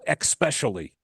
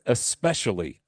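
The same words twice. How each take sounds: First: The word begins with an 'ex' sound. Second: The word begins with an 'es' sound. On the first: The speaker calls it wrong. "like E X. No, it's not an E X word. There is no especially" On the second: The speaker calls it right. "It's especially"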